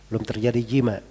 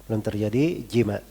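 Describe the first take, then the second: The two takes are said the same way.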